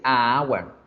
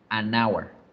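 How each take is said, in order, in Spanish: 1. El artículo es solo una vocal antes de hour. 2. Un sonido n une el artículo con hour. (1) "yo no puedo decir a hour, a hour. No suena bien" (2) "Se debe decir an hour"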